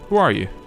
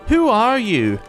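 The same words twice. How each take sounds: First: It is said in a plain, ordinary voice. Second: It is said in an obnoxious, mocking voice.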